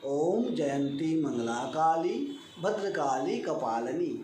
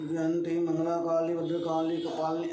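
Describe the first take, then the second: First: Each syllable of ओम जयंती मंगला काली said distinctly; clear syllables. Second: Slurred, blurred syllables; unclear mumbled reading. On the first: Teacher demonstrating the right way: crisp syllables. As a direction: pronounce every letter cleanly. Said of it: "स्पष्ट अक्षरों में". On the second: Teacher demonstrating the wrong way: mumbled. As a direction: mumble the mantra indistinctly. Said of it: "ऐसे नहीं पढ़ना है". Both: Shown as a demonstration.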